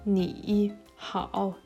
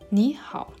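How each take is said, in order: First: Ni has a low dipping tone. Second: Ni has a rising tone. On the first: The speaker calls it wrong. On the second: The speaker calls it right. "sagt man"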